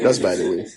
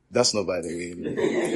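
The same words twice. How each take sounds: First: Said in the usual way. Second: Laughing, slow wrong version; slow laughing slip; laughing correction. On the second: Shown as a demonstration. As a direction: say it laughing, slowly.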